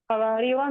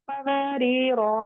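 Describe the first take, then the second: First: कवारीरा with a short final "ra"; कवारीरा run into the next word, alif silent; final alif dropped. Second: कवारीरा ending on a long "raa"; slow कवारीरा with final alif sounded; final alif pronounced. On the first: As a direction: clip only the last vowel of कवारीरा, reading on. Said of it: "continue में हम इसको नहीं पढ़". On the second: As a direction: hold the last vowel of कवारीरा at the stop. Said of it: "अगर बोल रहे तो पढ़ रहे थे". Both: Shown as a demonstration.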